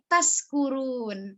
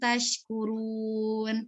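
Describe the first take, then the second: First: The middle consonant is a plain 's' sound. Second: The middle consonant is a 'sh' sound. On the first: May you be drunk. The speaker calls it wrong. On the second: May you be grateful. The speaker calls it right.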